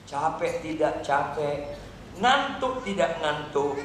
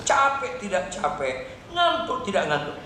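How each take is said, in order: First: "Capek tidak capek" slow and level; measured exhortation. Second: "capek tidak capek" quicker, pitched up then falling; insistent repeat. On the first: Preacher urges daily Bible reading, "capek tidak capek" slow, measured. First take, low and slow. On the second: Preacher pushes past resistance, "capek tidak capek" insistent. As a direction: punch the first word of "ngantuk tidak ngantuk". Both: Real, not acted.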